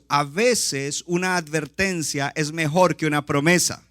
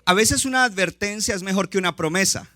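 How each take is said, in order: First: The sentence is spoken noticeably more slowly. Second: The sentence is spoken at a normal, quicker pace.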